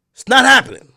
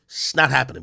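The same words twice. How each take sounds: First: Higher and louder, put-on menacing voice; loud mocking threat; mock tough-guy threat. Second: Said in the usual way. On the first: Shown as a demonstration. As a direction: bark it back like a fake gangster. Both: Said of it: "You gotta answer for what you".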